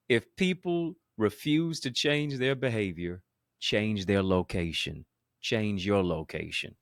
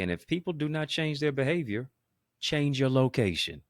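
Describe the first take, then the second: First: Slower and weightier, each word leaned on; slow emphatic repeat. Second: Said in the usual way. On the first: Shown as a demonstration. Preacher repeating his key line so the audience gets it, slow and emphatic. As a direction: drive it home slowly the second time. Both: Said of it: "Let me say that again".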